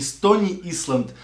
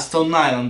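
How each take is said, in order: First: The name is read letter by letter as 'Stoni Island'. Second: The name is said the English way, 'Stone Eye-land'. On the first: The speaker calls it wrong. "правильно не Стони Исланд" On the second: The speaker calls it right. "а Стоун Айленд"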